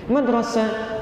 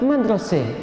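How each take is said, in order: First: The final vowel is an open 'a' sound. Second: The final vowel is fronted toward an 'e' sound.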